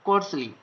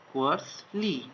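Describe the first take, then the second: First: Said in the usual way. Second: Slow dictation. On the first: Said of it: "plain repeat of word". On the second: Shown as a demonstration. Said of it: "slow repeat of dictated word".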